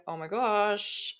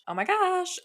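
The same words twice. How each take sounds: First: Drawn-out, slow exasperation at a fly; exasperated. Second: Real high squeak of annoyance; high-pitched exasperation. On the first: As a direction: stretch it out, fed up with the fly. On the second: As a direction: let it jump way up, bothered by the fly. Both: Real, not acted. Fly buzzing around mid-recording.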